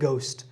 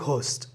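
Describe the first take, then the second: First: The first sound is a plain, unaspirated g. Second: The first sound is a breathy, aspirated g. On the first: The speaker calls it right. "এটা হচ্ছে কি গোস্ট" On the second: The speaker calls it wrong. "আমরা বলি যে ঘোস্ট, এটা ঘোস্ট হবে না"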